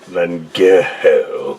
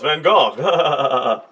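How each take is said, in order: First: The name is said in the commonly heard way. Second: The name is said in the less familiar way. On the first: This is how most people say it. "you're a moron. It's Van Gogh" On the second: This is the proper pronunciation. "actually, no, it's Van Gogh"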